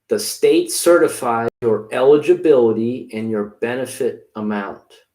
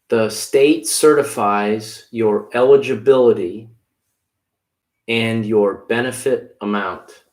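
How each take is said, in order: First: It is said at normal speed. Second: It is said slowly.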